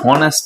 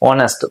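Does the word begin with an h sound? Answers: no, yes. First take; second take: yes; no. First: The word begins with an h sound. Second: The word begins with a vowel sound. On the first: This is how people said it long ago. "એ શરૂઆતમાં હોનેસ્ટ જ હતું" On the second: This is how people say it today. "ધીમે ધીમે ધીમે છે શું થયું ઓનેસ્ટ થયું"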